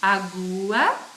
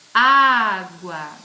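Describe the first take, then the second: First: The first vowel is said without the accent. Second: The first vowel is said with the accent. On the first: "eu vou ler sem pronunciar o acento agudo" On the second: "Quando tem um acento agudo... articulo de forma diferente"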